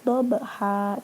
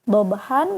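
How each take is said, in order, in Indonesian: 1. Kata ini berakhir dengan vokal panjang. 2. Kata ini berakhir dengan bunyi n.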